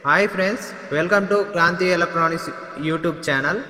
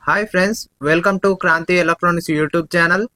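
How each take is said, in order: First: The voice has an added echo effect. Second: Background noise is filtered out, with no echo. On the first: "ఇప్పుడు echo మోడ్లో వింటున్నారు" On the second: "noise cancellation ఆన్లో ఉన్నప్పుడు"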